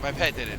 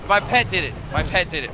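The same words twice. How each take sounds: First: Said in the usual way. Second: Loud, hammed-up accusation; mock blaming. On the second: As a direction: insist it loudly, half-joking. Repeats the blame, fading.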